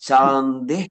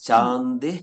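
The two takes are said the same way.

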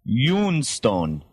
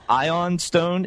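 First: The first word starts with a 'yoo' sound. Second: The first word starts with an 'eye' sound. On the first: The speaker calls it right. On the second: The speaker calls it wrong.

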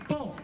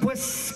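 First: The word is shortened to po. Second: The word is said in full as pues. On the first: This is how people in the south say it. The speaker calls it right. "te decís, po" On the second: This is how people from the north say it. The speaker calls it wrong. "No puedes decir, pues"

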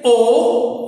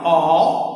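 First: The vowel is close, with the sound pushed upward. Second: The vowel is open, with the jaw dropped low. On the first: "you are directly shooting your sound up" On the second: "When you say this one, the chin is dragged down"

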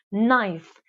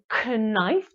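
First: No k sound is heard at the start. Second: A k sound is heard at the start. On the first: The speaker calls it right. "tylko mówimy knife" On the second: The speaker calls it wrong. "Nie mówimy knife"

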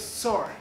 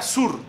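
First: The name is said the American way. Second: The name is said the Colombian way. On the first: "Estados Unidos" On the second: "En Colombia"

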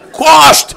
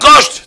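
First: The word has a plain s sound. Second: The word has an sh sound. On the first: "יש להם ויכוח עם השין" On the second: "אבל אני אומר קושט"

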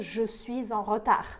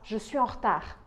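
First: Suis is linked to en with a z sound. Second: Suis and en are said without a linking sound.

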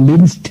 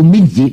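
First: The word ends with a clipped 'st' sound. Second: The word ends with an open 'ji' sound. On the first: A Western cook would say it. The speaker calls it right. "พ่อครัวฝรั่งคงจะบอกว่าเอา" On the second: A Hainanese assistant would say it. The speaker calls it wrong. "ก็เรียกไม่ถูกเลยเรียกว่าเอา"

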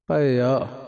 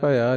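First: The vowel after bh is drawn out long. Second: The vowel after bh is kept short. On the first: The speaker calls it right. "ਖਿੱਚ ਕੇ ਪੜ੍ਹਨਾ ਜੀ" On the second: The speaker calls it wrong. "ਨਹੀਂ"

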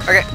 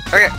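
Both takes have the same delivery.

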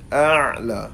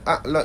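First: It starts with a throaty ain sound. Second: It starts with a plain glottal stop. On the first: The speaker calls it right. "kena baca dengan a'la, huruf ain" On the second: The speaker calls it wrong. "Kalau baca a'la itu hamzah"

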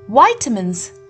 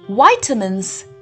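First: It is said with an American English pronunciation. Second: It is said with an American English pronunciation.

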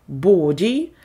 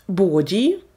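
No difference in how they are said.

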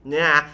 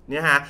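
The two takes are said the same way.

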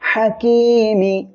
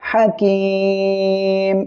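First: The word ends with a short i vowel. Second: The word ends on the consonant m. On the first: The recitation continues without stopping. "হাকি মিম স্যার মি" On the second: The reciter stops at the end of the verse. "আমরা এই জায়গায় সাকিন দিয়ে পড়ব। তাহলে হাকিম এমনভাবে পড়ব।"

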